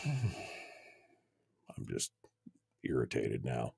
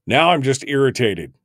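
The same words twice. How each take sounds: First: Breathy near-whisper through a sigh, much softer; sighed irritation. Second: Louder, higher frustrated outburst; irritated. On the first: Host sighs over broken audio, softly irritated. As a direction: sigh it out, deflated and fed up. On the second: Host vents at failing system, openly irritated. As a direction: snap it out, fed up. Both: Real, not acted.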